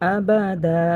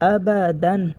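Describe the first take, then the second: First: The word ends on a drawn-out vowel, no n. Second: The word ends with a clear n sound. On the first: The reader stops at this word. "অক্ফ করলে পড়ব আবাদা" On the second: The reader continues without stopping. "যদি অক্ফ না করি তাহলে পড়তে হবে আবাদান"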